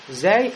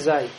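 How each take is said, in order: First: The sound is thin and light, with a front vowel. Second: The sound is thick and heavy, with a back vowel. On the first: The speaker calls it right. "зей мураккака" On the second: The speaker calls it wrong. "а не зай"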